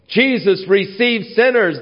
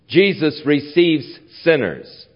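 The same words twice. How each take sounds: First: It is said with a glad, celebrating tone. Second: It is said with a scornful, disapproving tone. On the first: Receiving sinners is good news worth celebrating. The speaker calls it right. "That should be said in a rejoicing sense" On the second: Receiving sinners is something shameful. The speaker calls it wrong. "That shouldn't be said in a derogatory sense"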